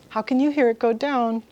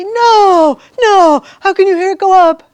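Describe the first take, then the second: First: Said in the usual way. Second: Loud, high disbelieving protest; mocking students' outraged disbelief; incredulous students. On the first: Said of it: "And I say". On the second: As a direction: imitate students who can't believe it, loud and high. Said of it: "they look at me and they say".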